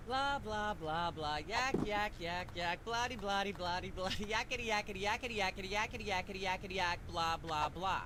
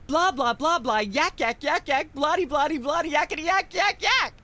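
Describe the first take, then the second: First: Much softer droning nonsense chatter; background babble. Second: Building rant. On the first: Host droning on unheard while guests talk, much softer babble. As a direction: mutter on endlessly under the conversation. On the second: Talk show host ranting about pop music, climbing to a shrill peak. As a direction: wind yourself up into a frenzy of nonsense. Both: Acted.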